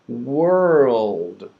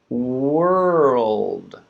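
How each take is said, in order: The two takes are said the same way.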